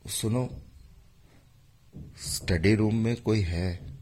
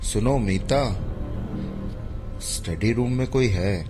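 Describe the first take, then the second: First: It is said very softly. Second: It is said a bit louder.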